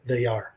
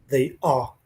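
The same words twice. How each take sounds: First: It is said with an American accent. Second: It is said with a British accent. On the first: "en vez de they are" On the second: "They are en vez de"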